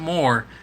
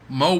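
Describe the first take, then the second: First: The word ends with an audible r sound. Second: The word ends on a vowel, no r. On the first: The speaker calls it wrong. "not more" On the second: The speaker calls it right. "It's Mo M O Mo butter"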